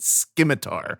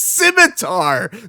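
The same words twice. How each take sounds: First: The c is said with a hard k sound. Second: The c is said with a soft s sound. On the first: The speaker calls it wrong. "they pronounced it scimitar" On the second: The speaker calls it right. "it's scimitar. The sea is soft"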